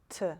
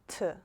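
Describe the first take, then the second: First: The T is said in an English-like way. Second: The same.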